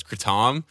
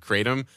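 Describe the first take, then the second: First: Kratom as "kruh-TOM"; borrowed pronunciation. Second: Kratom as "KRAY-tum"; usual pronunciation. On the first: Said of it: "I would read it as Kratom". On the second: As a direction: say Kratom with a long "ay". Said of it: "every time I read the word". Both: Shown as a demonstration.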